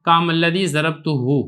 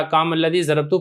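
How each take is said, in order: First: ज़रबतुहु with the hu pronoun spoken at the end; full form with hu. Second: ज़रबतु ending on a plain u, no hu added; short form without hu. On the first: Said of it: "हकीकत के एतबार से ये क्या है". (ज़रबतुहु को पूरा हु के साथ पढ़ना) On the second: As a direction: say ज़रबतु cut short, dropping the hu. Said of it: "काम अल्लज़ी ज़रबतु पढ़ सकते हैं". (ज़रबतु को बिना हु के छोटा पढ़ना) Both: Shown as a demonstration.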